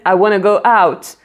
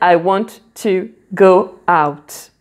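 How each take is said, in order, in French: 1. 'Want to' est réduit et fondu en 'wanna'. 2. 'Want' et 'to' se disent en entier et séparément. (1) "la façon courte de dire want to" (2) "Au lieu de dire"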